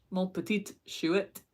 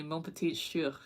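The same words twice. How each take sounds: First: Slow, lightly put-on French accent; French-sounding. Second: Said in the usual way. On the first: Trying out a viewer's French phrase, French-sounding. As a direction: say it slowly with a hint of French. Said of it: "It sounds French".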